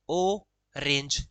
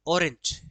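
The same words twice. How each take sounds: First: "ओ range" broken slowly into two beats, ओ and range; split into syllables. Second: Said in the usual way. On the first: Shown as a demonstration. Teacher counting syllables for students, "ओ range" split in two. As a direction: say "ओ range" with a clear gap between ओ and range. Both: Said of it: "इसमें दो है".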